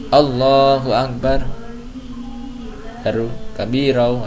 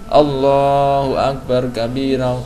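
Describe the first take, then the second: First: There is a brief pause after Akbar. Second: The phrase runs on with no pause after Akbar. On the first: The speaker calls it right. "Kasih spasi" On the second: The speaker calls it wrong. "Jangan langsung Allahu Akbar kabira. Ini enggak ada saktanya"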